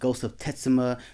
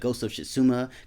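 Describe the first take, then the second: First: The name begins with a clearly sounded T. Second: The T at the name's start is nearly silent. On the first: The speaker calls it wrong. "I thought it was Ghost of Tetsuma" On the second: The speaker calls it right. "the T is silent"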